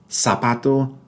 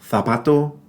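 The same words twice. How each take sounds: First: The z is pronounced like an s. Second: The z is pronounced like th in thanks. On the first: This is how it is said in the Americas. "It's like an S" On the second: This is how it is said in much of Spain. "it's going to be the T H sound in thanks"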